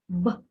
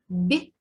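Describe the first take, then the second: First: The consonant is hard, without palatalization. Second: The consonant is soft, with palatalization. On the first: "б – это твердый звук" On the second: "б – это мягкий звук"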